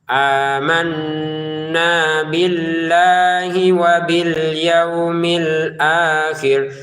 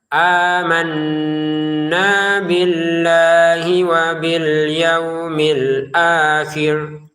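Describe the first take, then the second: No difference in how they are said.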